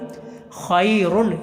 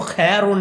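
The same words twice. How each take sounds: First: The first vowel is the diphthong ai. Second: The first vowel is a plain long e. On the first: The speaker calls it right. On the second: The speaker calls it wrong.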